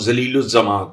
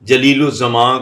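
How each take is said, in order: First: The name is said without the j sound. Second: The name is said with a standard j sound.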